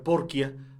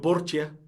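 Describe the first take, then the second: First: The middle consonant is a k sound. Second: The middle consonant is an s sound.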